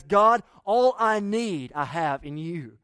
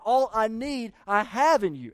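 First: God, all I need slowed, ALL stressed loud; slow, weighty prayer. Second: All stressed, I have in you pressed firmly. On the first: Pastor slowing right down to voice contentment, weighty. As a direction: lean hard on all, slowly. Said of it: "Contentment says". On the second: Pastor restating the prayer, pressing on all. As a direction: punch all, then land have. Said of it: "Not just all I have comes from you". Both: Shown as a demonstration.

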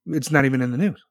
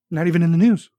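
First: Said in the usual way. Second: Louder, higher indignant repeat. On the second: Real, not acted. Ranting to chat about news, louder indignant repeat. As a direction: hammer it home, outraged.

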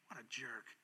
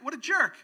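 First: What a jerk, dropped low and soft; a soft scornful aside; low disgusted mutter. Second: What a jerk, thrown out high and loud; higher, louder jeer at the devil; loud exasperated jeer. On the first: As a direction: shake your head and mutter it. Repeated phrase dropped low. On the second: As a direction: call him out with scorn. Preacher repeats phrase loudly. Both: Real, not acted.

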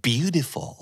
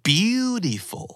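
First: Said in the usual way. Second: Beautiful with BEAU stretched high; drawn-out, high-pitched BEAU in Beautiful; stress on first syllable. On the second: Shown as a demonstration. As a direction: model Beautiful slowly, first syllable raised and held. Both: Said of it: "พยางค์ที่ถูกเน้นเสียง".

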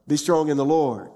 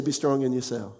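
First: "Lord" firm, with a falling finish; corrected version. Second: "yourself" dropped at the end; dismissed wrong version. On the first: Preacher correcting the congregation on the verse, firm fall on "Lord". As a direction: land firmly on "Lord" as the right answer. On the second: Preacher citing what the verse didn't say, "yourself" falling away. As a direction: let "yourself" fall away as the wrong answer. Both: Shown as a demonstration. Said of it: "He didn't say".

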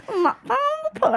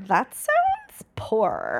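First: Very high, slow, laughing mimicry; mocking echo. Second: "poor" stretched out very long; drawled "poor". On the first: Imitating coworkers who stopped and echoed the remark, high mocking voice. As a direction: parrot it back high and drawn out. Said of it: "looked at me and was like". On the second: Retold or imitated. Retelling own remark to coworkers about the Delta, with "poor" drawn out. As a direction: drag out the word "poor" slowly. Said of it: "I said it like that".

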